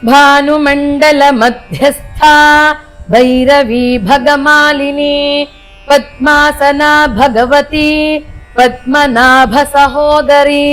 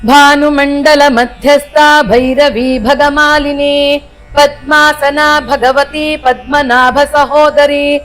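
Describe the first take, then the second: First: The verse is recited at a slow pace. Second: The verse is recited very fast.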